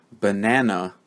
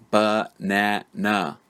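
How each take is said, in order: First: Said in the usual way. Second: "Banana" drawn out slowly in three separate syllables. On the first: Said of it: "when I say the word banana". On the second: Shown as a demonstration. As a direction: count out "Banana" as ba, na, na with gaps between. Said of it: "this word has three syllables".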